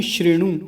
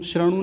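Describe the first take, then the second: First: श्रेणु as "shri-nu"; correct vowel. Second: श्रृणु as "sra-nu"; wrong vowel. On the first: Teacher correcting the error, श्रेणु starting with "shri". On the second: Teacher showing the error, श्रृणु as "sra-nu". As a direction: say श्रृणु with "a" after the r. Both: Shown as a demonstration. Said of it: "श्रृणु नहीं श्रेणु".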